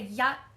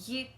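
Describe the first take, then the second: First: The word has an open 'ah' vowel. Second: The word has a close 'ee' vowel. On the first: This is the Cantonese form of the word. "they say yat is one" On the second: This is the Taishanese form of the word. "We say yit for one"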